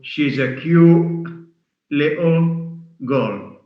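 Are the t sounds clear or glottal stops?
glottal stops. The t sounds are replaced by glottal stops.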